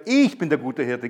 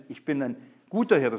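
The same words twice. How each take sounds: First: Weight it all on "ich", as in he alone; stress on ich. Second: Said in the usual way. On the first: Shown as a demonstration. Preacher showing the Greek emphasis to the congregation, "ich" stressed. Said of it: "das heißt, das Schwere". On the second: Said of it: "Nicht einfach, ich bin".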